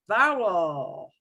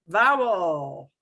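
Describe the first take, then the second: No difference in how they are said.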